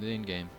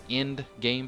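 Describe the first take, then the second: First: The first word sounds like 'in'. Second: The first word is clearly said as 'end'. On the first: The speaker calls it wrong. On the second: The speaker calls it right.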